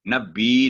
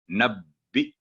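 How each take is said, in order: First: नब्बी with the vowel stretched long; the wrong, lengthened नब्बी; wrong drawn-out nabbi. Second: नब्बी with a quick doubled b, no long vowel; नब्बी said crisply with a stressed bb; short nabbi. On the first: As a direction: draw out नब्बी as the mistake. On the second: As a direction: clip नब्बी short and sharp. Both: Shown as a demonstration. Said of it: "नब्बी नहीं होगा, आवाज लंबी नहीं होगी".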